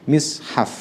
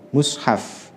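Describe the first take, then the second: First: The first vowel is an i sound. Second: The first vowel is an u sound. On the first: "Ada yang mishaf" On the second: "bisa dibaca dengan dhammah mushaf"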